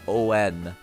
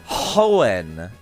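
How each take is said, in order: First: It starts with a vowel, no H sound. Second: It starts with an H sound. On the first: "without pronouncing the H" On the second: "that's very awkward to pronounce"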